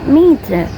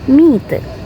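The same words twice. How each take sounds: First: The final R sound is pronounced. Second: The final R sound is left silent. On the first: The speaker calls it wrong. "not meter" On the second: The speaker calls it right. "but meter"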